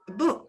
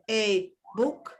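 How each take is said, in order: First: The article is reduced to a faint schwa. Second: The article is said as a full vowel. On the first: The speaker calls it right. "Es book, book" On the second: The speaker calls it wrong. "nadie dice a book"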